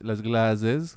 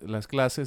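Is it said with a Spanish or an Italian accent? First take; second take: Italian; Spanish. First: It is said with an Italian accent. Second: It is said with a plain Spanish accent.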